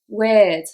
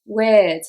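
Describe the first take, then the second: First: The vowel is an ear-like sound. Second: The vowel is an ear-like sound.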